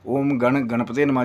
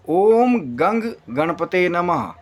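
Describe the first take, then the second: First: The seed syllable ends in an 'n' sound. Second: The seed syllable ends in an 'ng' sound. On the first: The speaker calls it wrong. "गण वाले तो, उनको तो मेरा प्रणाम है दूर से" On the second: The speaker calls it right. "तीसरा उच्चारण है कहीं न कहीं इस बीज मंत्र का, वो है ओम गंग"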